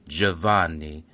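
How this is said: The name is said with an Italian pronunciation. "in Italian you would pronounce this"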